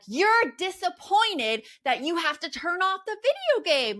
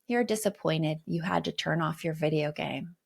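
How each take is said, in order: First: It is said with high emotional energy. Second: It is said in a calm, flat tone.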